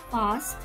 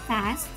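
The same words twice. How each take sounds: First: British accent, with an open a vowel. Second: American accent, with a flat front a vowel. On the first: "dibaca dengan aksen British" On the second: "Sedangkan untuk American"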